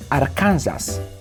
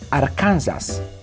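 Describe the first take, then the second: First: It is read letter by letter, the Polish way. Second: The same.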